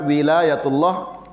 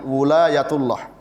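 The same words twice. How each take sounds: First: The first vowel is an i sound. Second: The first vowel is a u sound. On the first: "dengan kasroh pada wawunya" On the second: "dengan dhammah pada wawunya"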